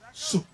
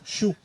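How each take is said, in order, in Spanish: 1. El nombre empieza con sonido s. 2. El nombre empieza con sonido sh. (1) "vamos a decirlo en español" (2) "En inglés se pronunciaría el Dios Shu"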